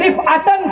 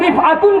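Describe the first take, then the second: First: The word ends with the vowel sound -an. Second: The word ends with the vowel sound -un. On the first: He was granted elevation and reached it. "रिफातन पढ़ा जाता है मफूल के साथ" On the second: Elevation itself came to his feet. "अगर रिफातुन कर दिया जाए, मफऊल की जगह फाइल बनाया जाए"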